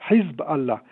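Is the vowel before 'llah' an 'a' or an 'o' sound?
A. The vowel before 'llah' is an 'a' sound. This is the Arabic pronunciation. "en arabe, on devrait dire le Hezbollah"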